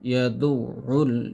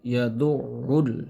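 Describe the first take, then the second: First: The 'ain sound is held, pronounced doubled. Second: The same.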